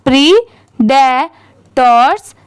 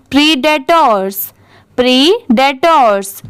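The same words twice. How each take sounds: First: predators drawn out slowly, part by part; slow syllable-by-syllable. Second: predators run together as one word; at reading speed. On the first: Teacher joins three parts for beginners, slow syllable-by-syllable. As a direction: say predators in slow, separated chunks. Breaking word up before speeded reading. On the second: Teacher shows beginners the joined-up word, at reading speed. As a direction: say predators briskly, without breaks between parts. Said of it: "इसे speed में पढ़ते हैं". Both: Shown as a demonstration.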